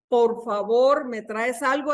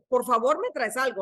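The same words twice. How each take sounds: First: It is said in a gentle, polite tone. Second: It is said in a curt, demanding tone. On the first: A courteous request. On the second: An impatient order despite the polite words.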